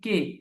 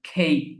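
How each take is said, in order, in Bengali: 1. অক্ষরটি সাধারণ 'ke' হিসেবে উচ্চারিত হয়। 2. অক্ষরটি শ্বাসযুক্ত 'khei' হিসেবে উচ্চারিত হয়। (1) "আমরা বলি কে" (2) "ব্রিটিশরা উচ্চারণ করে খেই"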